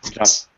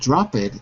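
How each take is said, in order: First: The ending is a plain t sound. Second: The ending is said as an extra syllable. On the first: The speaker calls it right. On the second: The speaker calls it wrong. "the pronunciation is not drop it"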